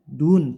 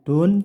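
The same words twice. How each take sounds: First: The vowel is a clear, pure u. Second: The vowel is slanted away from a clear u. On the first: The speaker calls it right. "tapi dun pakai u" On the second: The speaker calls it wrong. "jangan sampai membaca miring ke dun, bukan dun"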